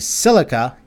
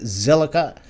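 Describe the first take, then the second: First: It sounds like the word silica. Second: It does not sound like the word silica. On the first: The speaker calls it right. "silica as in silica oxide" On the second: The speaker calls it wrong. "I've been saying it wrong"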